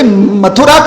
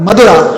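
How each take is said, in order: First: The middle consonant is an aspirated t sound. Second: The middle consonant is a d sound. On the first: "हम लोग जैसे मथुरा बोलते हैं, थ शब्द का उच्चारण करते हैं" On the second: "दक्षिण में प्राकृत भाषा में थ का बन जाता है द"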